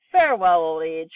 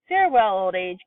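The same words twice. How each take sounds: First: Joyful cry. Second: Put-on a second gleeful goodbye to old age; joyful cry. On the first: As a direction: wave old age goodbye with glee. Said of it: "cried Grandma Georgina". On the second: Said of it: "Grandma Georgina cried". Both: A narrator's reading.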